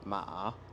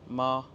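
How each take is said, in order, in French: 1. Le ton descend puis remonte. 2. Le ton reste haut et plat. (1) "le ton qui descend puis qui remonte" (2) "le premier ton, le plus aigu"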